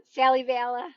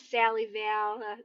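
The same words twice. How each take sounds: First: Sally Vela called out with a lift at the end; Sally Vela with an upward lilt; bright rising name. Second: Slow, low, lingering Sally Vela, each syllable drawn out; softer, slower Sally Vela; savoring the name. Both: Shown as a demonstration. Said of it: "I love saying your name".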